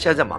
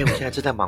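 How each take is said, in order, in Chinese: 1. 语气听起来坚定、生硬，还有些不耐烦。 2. 语气听起来温和、真诚，还带着歉意。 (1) "他如果语气是这样说话，说" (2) "他如果语气是如此诚恳"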